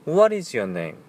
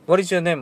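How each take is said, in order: First: It is said slowly with careful articulation. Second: It is said quickly and loosely.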